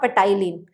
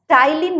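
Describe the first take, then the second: First: The word begins with a P sound. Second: The word begins with a T sound. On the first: The speaker calls it wrong. "not ptyalin" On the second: The speaker calls it right. "we pronounce it as ptyalin, ... pronunciation starts from T"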